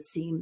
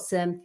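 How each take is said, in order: First: The vowel is long, like in "seem". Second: The vowel is short, like in "sim". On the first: This is how the speaker says it. The speaker calls it right. "It's supposed to be SIEM" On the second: This is how many people in the industry say it. The speaker calls it wrong. "A lot of people in the industry call it SIM"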